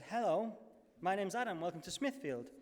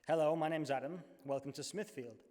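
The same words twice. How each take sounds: First: It is said in a noticeably higher pitch. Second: It is said in a theatrical voice, lower pitch. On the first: "only higher" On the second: "in my most actory voice"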